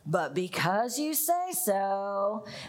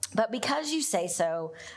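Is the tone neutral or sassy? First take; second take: sassy; neutral. First: It is said sassily, like an eye roll. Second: It is read in a plain, neutral tone.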